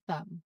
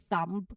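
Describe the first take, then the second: First: No b sound is heard at the end. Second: A b sound is heard at the end. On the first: This is the common everyday form. "what's common practice is always thumb" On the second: This is a less common but acceptable form. "it's also accept- acceptable to say thumb"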